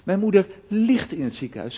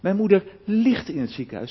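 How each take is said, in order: First: The stress is on the word ligt. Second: The same.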